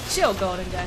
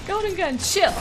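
First: Said in the usual way. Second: High, pleading whine; high plea. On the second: Real, not acted. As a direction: beg them to stop in a squeaky voice. Pleading with enemy super.

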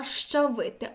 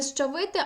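First: Щавити begun with a hushing шч; assimilated sh-ch. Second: Щавити begun with a hissing с then ч; s kept before ch. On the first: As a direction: say щавити with ш before ч. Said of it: "«ш ч»". (щавити з шч на початку) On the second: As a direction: say щавити as счавити, unassimilated. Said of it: "наприклад, не". (щавити як счавити, з початковим с) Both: Shown as a demonstration.

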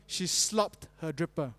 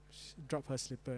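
First: "slopped her dripper" said slowly as the swapped version; deliberately slow "She slopped her dripper"; spoonerism. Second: "dropped her slipper" said much softer and lower as an aside; correct version. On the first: Preacher tells the joke tale, slow deliberate spoonerism. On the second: Preacher corrects the joke line, soft lower aside. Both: Shown as a demonstration. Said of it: "She dropped her slipper, huh?".

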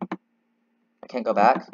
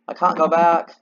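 First: Slow, drawn-out worry; slow dread. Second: Pitched up and louder in panic; higher, louder alarm. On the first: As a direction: stretch each word like you're stuck. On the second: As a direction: cry it out, alarmed. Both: Real, not acted.

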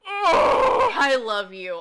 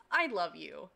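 First: Overjoyed cry. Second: Said in the usual way. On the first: Real, not acted. Moved reading viewer's comment.

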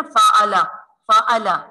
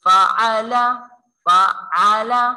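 First: फाअला with a plain hamza stop instead of ain; wrong hamza. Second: फाअला with a throaty ain sound; correct ain. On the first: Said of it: "अगर हम इसे ऐसे पढ़ेंगे ना". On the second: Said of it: "तो वो हमजा की आवाज़ बन जाएगी". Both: Shown as a demonstration.

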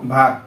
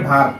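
The two takes are said the same way.

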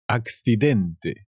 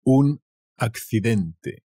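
First: Accidente said slowly, the c lisped as akθidente; teacher repeats Accidente for learners, slow and clear; slow Spanish model word. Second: Un accidente said slowly, accidente with a lisped c as akθiðente; teacher models Un accidente for learners, slow clear Spanish; slow Spanish model word. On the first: Teacher repeats the word slowly. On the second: Teacher slowly models the Spanish word. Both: Shown as a demonstration. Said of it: "An accident".

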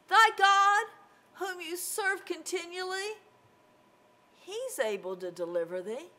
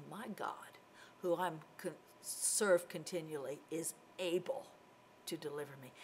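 First: High, uncertain king's question, loud at the start; doubtful questioning. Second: Low, soft, calm certainty; assured statement. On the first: King wondering if God can save Daniel, doubtful. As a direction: ask it high and wavering, unsure of the answer. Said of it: "wouldn't have said it like that". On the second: Daniel answering that his God is able, quietly assured. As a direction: state it quietly, settled and sure. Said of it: "Daniel would have said". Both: Acted.

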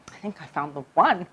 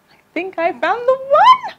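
First: Said in the usual way. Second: High, slow, swooning and much louder. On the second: Retold or imitated. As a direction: sigh it out like you've fallen in love. Swooning repeat of the line.

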